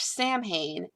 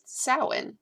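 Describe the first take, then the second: First: The word is said as it looks in English. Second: The word is not said as it looks in English. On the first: The speaker calls it wrong. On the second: The speaker calls it right.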